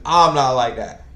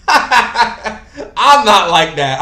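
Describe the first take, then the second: First: Said in the usual way. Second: Drawn out and loud; emphatic denial. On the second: Shown as a demonstration. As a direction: stretch it out, loud and laughing.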